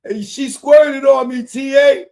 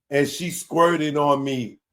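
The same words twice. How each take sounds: First: High, loud excited holler. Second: Said in the usual way. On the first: Acted. Reader acting out the rapper hollering to his friend, shouting. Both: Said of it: "[name] began shouting".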